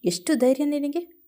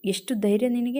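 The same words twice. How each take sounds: First: Higher, angry rising challenge; voice shaking with anger. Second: A stern challenge, only lightly raised; firm demand with a mild rise; firm, loud voice. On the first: Boss confronting Nandini for taking Minchu out, angry higher challenge. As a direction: demand it with a raised, shaking voice. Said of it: "ಅವನ ಧ್ವನಿ ಕೋಪದಿಂದ ಕಂಪಿಸುತ್ತಿತ್ತು". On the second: Boss catching Nandini packing to leave, stern challenge. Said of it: "ಅವನ ಧ್ವನಿ ಗಟ್ಟಿಯಾಗಿ ಕೇಳಿಸಿತು". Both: A narrator's reading.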